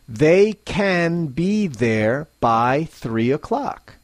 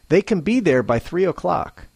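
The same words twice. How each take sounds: First: Slow, with every small word said in full. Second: Normal pace, with the small words reduced. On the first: The speaker calls it wrong. "slowly, clearly, and less naturally" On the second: The speaker calls it right. "at a normal pace"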